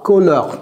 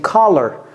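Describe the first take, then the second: First: The word is pronounced with French-style sounds. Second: The word is pronounced with American English sounds. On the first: The speaker calls it wrong. "ne dites pas color" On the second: The speaker calls it right. "Non, c'est color"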